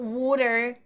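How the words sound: The first vowel is a rounded 'aw' sound. The speaker calls it wrong. "Where are you getting the O from?"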